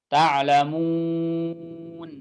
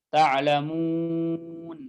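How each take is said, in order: No difference in how they are said.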